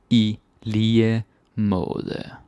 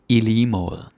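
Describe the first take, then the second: First: "I lige måde" stretched slowly, every sound clear; slow teaching repeat. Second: Said in the usual way. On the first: Shown as a demonstration.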